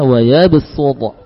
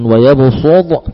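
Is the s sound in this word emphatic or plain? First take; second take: plain; emphatic. First: The s is the plain light sin sound. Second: The s is the heavy emphatic sad sound. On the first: The written letter is replaced by another. "kita baca wayabusud" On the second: It is read as it is written. "Walaupun tertulis dengan wayabusud"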